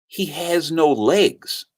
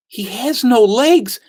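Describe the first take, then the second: First: Slow, measured delivery at normal pitch; grave revelation. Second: Higher, slow, stunned disbelief; drawn-out astonishment, voice raised in pitch; shocked repeat. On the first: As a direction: let the news land slowly and plainly. Wife's revelation, retold. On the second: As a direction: repeat the news aghast, pitched up. Teller's shocked repeat of revelation. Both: Retold or imitated.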